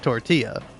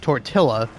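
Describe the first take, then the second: First: The double L sounds like a Y. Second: The double L sounds like an English L. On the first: The speaker calls it right. "it's tortilla. ... the double L is pronounced like a Y" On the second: The speaker calls it wrong. "it's not tortilla"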